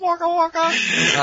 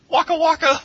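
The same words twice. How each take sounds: First: Very high, slow "Waka waka"; silly clown. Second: High, loud Fozzie-style "Waka waka!"; silly clown. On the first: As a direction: stretch it out like a goofy clown. Comic catchphrase repeated. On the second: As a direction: squeal it like a goofy clown. Comic catchphrase shouted. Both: Acted.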